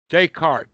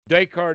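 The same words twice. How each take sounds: First: The name is said with French pronunciation. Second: The name is said with French pronunciation.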